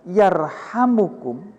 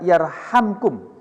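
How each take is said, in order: First: A short u vowel follows the m sound. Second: No vowel follows the m sound. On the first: It is a prayer asking for mercy. "mimnya dibaca dhamma, dibaca rofa" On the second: It answers the command to show mercy. "mimnya dibaca sukun, jadi dibaca jazm"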